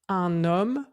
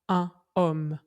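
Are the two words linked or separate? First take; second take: linked; separate. First: The n is linked onto the next word. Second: The two words are kept separate, without liaison. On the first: The speaker calls it right. "On dit bien un homme" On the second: The speaker calls it wrong. "on ne dit pas un homme"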